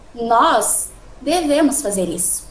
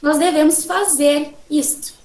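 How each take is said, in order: First: The word nós is louder, followed by a pause. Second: The word fazer is louder, set off by a pause. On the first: "eu tentei falar um pouco mais alto nós, um pouco, dar uma pausa e continuar no devemos fazer isso" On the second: "nós temos o foco no fazer"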